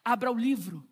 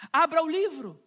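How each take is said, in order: First: Said in the usual way. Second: "Abra o livro" called out higher and louder, stress on "Abra"; louder command. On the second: Shown as a demonstration. Preacher urging congregation, loud "Abra o livro". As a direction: urge them, punching "Abra". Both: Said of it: "repeated command, second louder".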